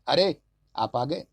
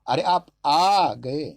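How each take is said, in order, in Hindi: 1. बलाघात पहले शब्द पर है। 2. बलाघात तीसरे शब्द पर है।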